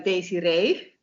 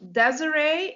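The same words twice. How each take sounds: First: The name is said with a Dutch pronunciation. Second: The name is said with an English pronunciation. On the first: "I'm from Holland, the Netherlands, and here we say uh" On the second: "you pronounce it um, Desiree in English"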